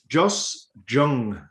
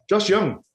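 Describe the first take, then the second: First: The surname begins with a J sound. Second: The surname begins with a Y sound. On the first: The speaker calls it wrong. "Not Jung" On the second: The speaker calls it right. "I think it might say it Young"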